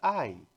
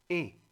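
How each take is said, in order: First: It is said as the glide 'ai'. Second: It is said as a plain 'e'. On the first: The speaker calls it wrong. "pero en francés ya no es ay" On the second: The speaker calls it right. "es e"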